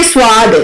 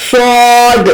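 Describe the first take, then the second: First: "سواد" said as people wrongly say it; wrong pronunciation. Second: "سواد" with the sound from the centre, round and full; correct Arabic sad. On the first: Teacher imitating how many people mispronounce "سواد". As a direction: demonstrate the mistaken "سواد". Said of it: "سواد بھی نہیں ہے". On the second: Teacher modelling the correct "سواد" for students. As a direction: voice "سواد" from the middle of the mouth. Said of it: "centre میں آواز نکالے". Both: Shown as a demonstration.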